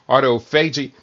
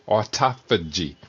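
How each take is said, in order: First: The stress is not on the second syllable. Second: The stress is on the second syllable. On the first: The speaker calls it wrong. "Some people pronounce it" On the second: The speaker calls it right. "emphasize the second syllable"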